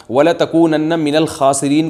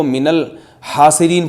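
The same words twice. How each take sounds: First: الْخَاسِرِينَ recited with a rasping kh at the start; correct recitation. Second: الْحَاسِرِينَ recited with a breathy h in place of kh; mistaken recitation. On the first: Mufti reciting the verse correctly before the mistake, careful recitation. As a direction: recite الْخَاسِرِينَ with a clear throaty kh sound. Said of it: "اب کسی قاری نے غلطی سے پڑھ لیا". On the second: Mufti demonstrating a reciter's slip to listeners, wrong-letter recitation. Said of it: "قاری نے غلطی سے پڑھ لیا". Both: Shown as a demonstration.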